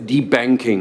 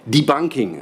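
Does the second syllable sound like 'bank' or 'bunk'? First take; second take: bank; bunk. First: The second syllable sounds like 'bank'. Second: The second syllable sounds like 'bunk'. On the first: The speaker calls it wrong. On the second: The speaker calls it right.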